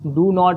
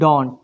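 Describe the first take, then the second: First: It is said as two separate full words. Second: It is said as one short contracted word. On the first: "डू नॉट है ना" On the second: "इसको short में spoken English जब पढ़ेंगे तो क्या हो जाता है, इसको डोंट बोला जाता है"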